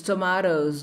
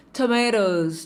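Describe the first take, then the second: First: TOMATOES as "to-MAH-dohs"; pronúncia britânica. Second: TOMATOES as "to-MAY-dohs"; pronúncia americana. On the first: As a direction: open "ah" vowel in British "tomatoes". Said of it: "na Inglaterra você vai ouvir tomatoes". (tomatoes com "a" aberto, à britânica) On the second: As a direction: stress the "ay" vowel in American "tomatoes". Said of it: "porque tomatoes a gente fala nos Estados Unidos". (tomatoes com "ei", à americana) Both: Shown as a demonstration.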